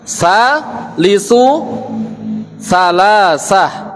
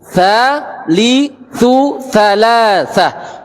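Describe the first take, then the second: First: The words begin with a hissing s sound. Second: The words begin with a soft th sound. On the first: The speaker calls it wrong. "ini terucap sa. Terucap sa ini salah" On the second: The speaker calls it right. "Tapi thalithu"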